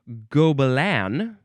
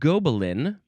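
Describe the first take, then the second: First: It is said with a French-style pronunciation. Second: It is said with an English-style pronunciation.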